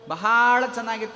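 Bahala is said with strong emphasis.

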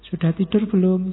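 It is said in a soft, romantic tone. The sender seems affectionate. "Jadinya romantis"

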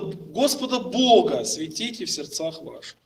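The stress falls on the words Господа Бога. "Он сделает ударение на слово Господа Бога"

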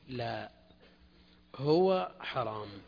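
There is a pause after the first word. The thing asked about is forbidden. The speaker calls it right. "لا، هنا وقف، لازم"

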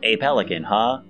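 It is said in a robotic voice.

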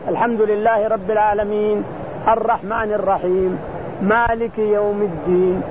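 There is a clear pause after each verse. The speaker calls it right. "وإن شئت أن تسكت على كل آية"

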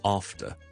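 It is said with a British English accent. "英式英文我哋after"

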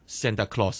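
The name is said with an English pronunciation. "傳到講英文嘅地方嘅時候，就變咗Santa Claus"

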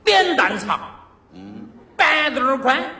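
It is said in a Sichuan dialect accent. "用四川话说这绕口令"

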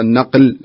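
The consonant after the article is a q sound. The speaker calls it right. "فالمفروض تقول النقل وليس النغل"

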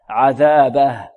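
The word stops on a bare final h. "إذا وقفنا عليها ... فإنها تسكن"

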